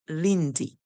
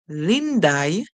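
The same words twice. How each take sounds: First: The name ends with an 'ee' sound. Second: The name ends with an 'eye' sound. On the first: "most persons would pronounce it as Lindy" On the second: "if you say Lindy using I for the Y at the end"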